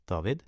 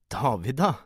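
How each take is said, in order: First: Gentle questioning lift; soft voice. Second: High, loud exclamation; exclaiming. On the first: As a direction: check on someone gently. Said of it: "sa en myk stemme". (myk, spørrende stemme) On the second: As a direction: burst out in startled reproach. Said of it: "utbrøt hun". (høyt, overrasket utbrudd) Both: A narrator's reading.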